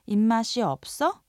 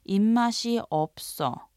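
First: The voice rises at the end as a question. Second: The voice falls at the end as a statement.

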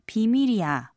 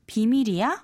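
First: The voice falls at the end. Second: The voice rises at the end. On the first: It is a statement that the matter is secret. "means it's a secret, so I won't even tell you" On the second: It asks whether the matter is secret. "means, is it a secret?"

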